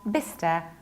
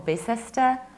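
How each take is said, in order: First: The middle 'ce' syllable is skipped. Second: The middle 'ce' syllable is pronounced. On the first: The speaker calls it right. "We pronounce it like Bicester because we need to skip C E" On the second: The speaker calls it wrong. "not pronounced like Bicester"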